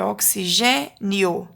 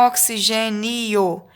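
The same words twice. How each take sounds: First: Oxigênio slowly by syllables, ending in one nio; io kept together. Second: Oxigênio with i and o split into two syllables; wrong syllable split. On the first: Teacher showing pupils the right division, oxigênio ending in joined nio. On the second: Teacher showing pupils the wrong division, oxigênio split as ni-o. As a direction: break the end of oxigênio into ni-o. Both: Shown as a demonstration. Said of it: "Aqui o ió fica junto".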